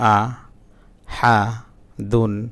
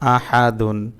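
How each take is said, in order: First: Each syllable is said separately with breaks. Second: The syllables are read together in one flow. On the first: "ভাঙা ভাঙা উচ্চারণ" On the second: "reading পড়তে পারেন"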